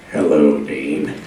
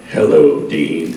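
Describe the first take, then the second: First: Very low rumbling angel voice; deep Castiel voice. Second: Very low, gravelly-free rumble of an angel; deep Castiel voice. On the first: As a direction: drop way down for Castiel. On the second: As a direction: drop way down into the Castiel growl. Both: Shown as a demonstration. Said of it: "the "Hello, Dean" voice".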